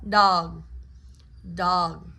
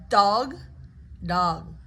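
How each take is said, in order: No difference in how they are said.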